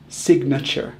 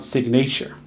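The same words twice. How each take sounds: First: "Signature" as SIG-nuh-cher; correct signature. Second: "signature" as sig-NAY-cher; mispronounced signature. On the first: Teacher modelling the schwa, correct pronunciation. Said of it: "we actually use the schwa". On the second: Teacher showing what not to say, mispronounced. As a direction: say "signature" wrongly with a long A. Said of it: "not signature". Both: Shown as a demonstration.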